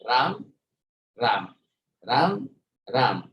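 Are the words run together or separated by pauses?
separated. Each word is separated by a short pause.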